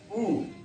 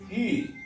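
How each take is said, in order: First: The vowel is a back rounded 'ou' sound. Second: The vowel is a front rounded 'u' sound. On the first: This is how the letter is said in Spanish. "c'est comme le diphtongue O U. Alors on dira OU" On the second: This is how the letter is said in French. "ici en français on dirait U"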